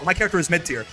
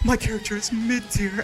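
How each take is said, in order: First: It is said in a casual, untroubled way. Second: It is said in a sad, tearful way. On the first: The character is simply judged average. "they don't go" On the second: The speaker is secretly despairing about the character. "with tears in their eyes"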